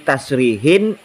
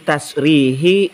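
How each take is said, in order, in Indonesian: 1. Kata ini berakhir dengan 'in', ada n-nya. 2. Kata ini berakhir dengan vokal 'i' polos. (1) "Seharusnya kan" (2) "Barangkali Pak Kiai membaca"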